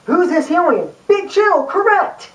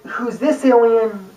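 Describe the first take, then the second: First: Higher, peppy quiz host; excited quiz host. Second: Slower, patient quiz voice; slow, drawn-out question. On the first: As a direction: announce the answer like an eager kids' show host. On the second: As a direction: draw out the question and wait. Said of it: "Instead of going". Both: Retold or imitated.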